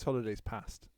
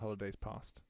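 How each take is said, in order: First: Past has a short northern English vowel. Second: Past has a long southern English vowel. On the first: "it's it's holidays past" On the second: "It's not holidays past"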